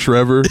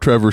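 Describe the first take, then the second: First: The name begins with an SH sound. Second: The name begins with a T sound. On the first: The speaker calls it wrong. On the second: The speaker calls it right.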